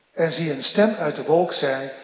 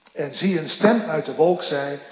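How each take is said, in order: Both takes have the same delivery.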